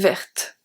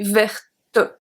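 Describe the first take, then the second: First: The word ends on the t with no vowel. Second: A vowel sound is heard after the final t. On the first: The speaker calls it right. "we say verte, t" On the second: The speaker calls it wrong. "If we were to pronounce verte, the E, it will be verte"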